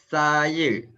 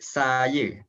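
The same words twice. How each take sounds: First: It begins with a lisped th-like sound. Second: It begins with a plain hissing s sound. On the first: The speaker calls it right. "Contoh dia saya" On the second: The speaker calls it wrong. "bukan saya"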